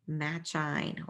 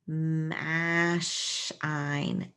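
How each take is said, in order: First: The middle consonant is a ch sound. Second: The middle consonant is a sh sound. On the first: "match, match, and then ein" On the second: "Let's try sh"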